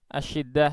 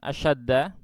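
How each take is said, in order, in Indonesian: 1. Vokal setelah 'sh' adalah i. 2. Vokal setelah 'sh' adalah a. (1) "Asyiddah ya" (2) "ini bukan asyaddah"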